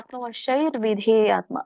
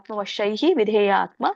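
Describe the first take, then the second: First: The first word ends in an 'r' linking onward. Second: The first word ends in a breathy 'hi' sound. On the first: The words are joined together. "ರ ವಕ್ಕಿಂತ ಮುಂಚೆ ರ ಹೇಳ್ಬೇಕು" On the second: The words are said separately. "ನೀವು ಇದನ್ನ ಬಿಡಿಸಿ ಹೇಳುವುದಾದ್ರೆ ಆತ್ಮವಶೈಹಿ ವಿಧೇಯ ಆತ್ಮ ಅಂತ ಹೇಳ್ಬೇಕು"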